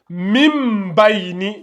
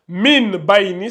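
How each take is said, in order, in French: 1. Le premier mot se termine par un son m. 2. Le premier mot se termine par un son n. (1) "ça devient Mim" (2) "au lieu que ce soit Min Baini"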